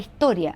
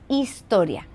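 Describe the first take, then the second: First: Some consonants in the word are dropped. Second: All consonants in the word are pronounced. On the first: This is how Chileans usually say it. "No pronunciamos las consonantes" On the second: This is the neutral form. "no, es historia"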